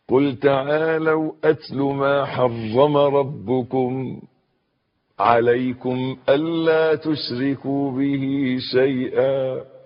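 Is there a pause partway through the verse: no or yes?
yes. There is a pause partway through the verse. "وقفة حلوة"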